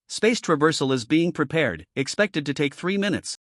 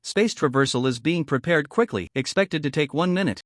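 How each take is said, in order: First: Flat, even machine voice; emotionless AI voice. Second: Flat, even machine voice; mechanical AI voice. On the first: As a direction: read it like a calm ship computer. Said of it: "the emotionless voice of the artificial intelligence". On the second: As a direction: report it like a ship computer. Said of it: "The mechanical voice of the artificial intelligence". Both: A narrator's reading.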